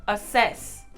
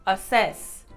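Both takes have the same delivery.

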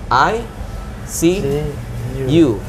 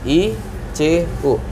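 First: The letters are spelled out slowly, one by one. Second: The letters are said at a normal pace.

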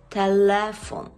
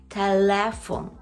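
No difference in how they are said.

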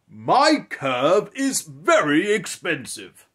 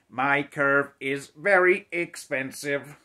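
First: It is said in a grand, kingly voice. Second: It is said in a flat, mechanical robot voice.

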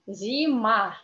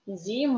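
First: The word is said slowly. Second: The word is said fast.

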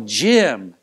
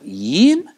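First: The name begins with a J sound. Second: The name begins with a Y sound. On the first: The owner of the name says it himself. The speaker calls it right. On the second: A Spanish speaker is trying to say the name. The speaker calls it wrong.

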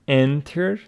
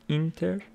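First: The first vowel sounds like 'en'. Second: The first vowel sounds like 'in'. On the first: The speaker calls it right. "Pronunciation of this word is enter" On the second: The speaker calls it wrong. "not inter"

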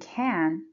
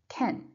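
First: The word has a full, stressed vowel. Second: The word has a weak, reduced vowel. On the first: The speaker calls it wrong. "So instead of saying can" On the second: The speaker calls it right. "you should say can"

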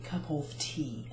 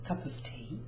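First: The word 'of' is pronounced fully and clearly. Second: The word 'of' is reduced to a weak sound. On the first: "when we say cup of tea" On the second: "it becomes cup of tea"

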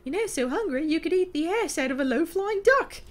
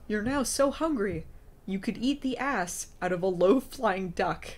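First: It is read in a high falsetto voice. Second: It is read in a normal, non-falsetto voice.

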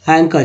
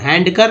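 First: No d sound is pronounced after the n. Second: A d sound is pronounced after the n. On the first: The speaker calls it right. "डी को नहीं पढ़ना" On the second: The speaker calls it wrong. "नहीं"

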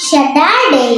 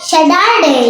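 Both takes have the same delivery.

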